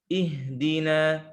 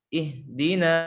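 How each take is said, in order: Both takes have the same delivery.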